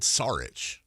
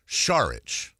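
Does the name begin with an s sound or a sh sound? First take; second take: s; sh. First: The name begins with a plain s sound. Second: The name begins with a sh sound. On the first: The speaker calls it wrong. "I've always said Saric" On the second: The speaker calls it right. "I'm gonna try Saric"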